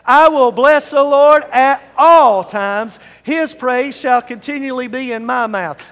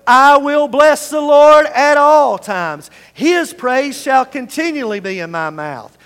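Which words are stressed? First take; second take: all times; none. First: The words all times are stressed. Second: No words are given special stress.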